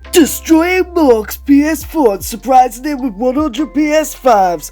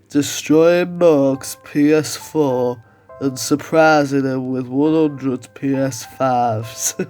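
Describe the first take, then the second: First: It is shouted hyped, in a Geordie-like accent. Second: It is said in a Yorkshire accent. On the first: The speaker calls it wrong. "I just went kind of weird, Geord- uh, Geordie there" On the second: The speaker calls it right. "like with a Yorkshire accent"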